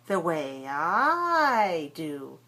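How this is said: The pronoun I is stressed. The speaker calls it right. "Stress the pronoun for contrast"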